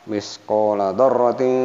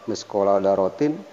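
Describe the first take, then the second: Both takes have the same delivery.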